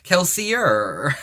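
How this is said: The name ends in an 'er' sound. The speaker calls it right. "or if you're American"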